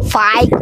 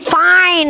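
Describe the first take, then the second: First: The word ends with a t sound. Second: The word ends with an n sound. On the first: The speaker calls it wrong. "Mana ada fight?" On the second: The speaker calls it right. "Gini cara ngomongnya"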